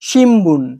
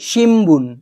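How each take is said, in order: First: An m sound comes before the b. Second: An m sound comes before the b.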